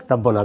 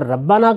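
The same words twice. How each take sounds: First: ربنا said "rabbuna", u after the b; alternative reading. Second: ربنا said "rabbana", a after the b; original reading. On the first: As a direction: round the middle vowel of ربنا to u. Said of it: "ربنا بھی پڑھا جا سکتا تھا". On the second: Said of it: "بھی پڑھا جا سکتا تھا". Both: Shown as a demonstration.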